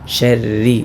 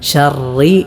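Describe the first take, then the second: First: The r sound is light and thin. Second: The r sound is heavy and thick. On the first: The speaker calls it right. "റായിനെ നേരിയതായ രൂപത്തിലാക്കി ശർരി എന്നാണ്" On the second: The speaker calls it wrong. "ശർറി റി എന്ന് ഉച്ചരിക്കാൻ പാടില്ല"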